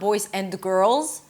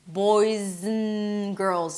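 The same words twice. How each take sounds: First: The 'and' is fully pronounced and separate. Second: The 'and' is reduced and linked to the words. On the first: The speaker calls it wrong. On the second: The speaker calls it right.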